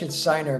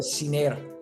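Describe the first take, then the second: First: The name is pronounced with English sounds. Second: The name is pronounced with Spanish sounds. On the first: "if you're saying it in English"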